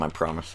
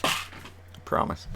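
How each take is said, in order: First: Soft, low quiet aside; quiet promise. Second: Unvoiced slow whisper of I promise. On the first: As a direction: murmur it softly. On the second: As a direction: whisper it slowly, breathy. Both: Real, not acted.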